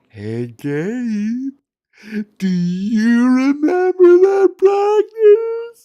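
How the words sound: It is said in a creepy voice.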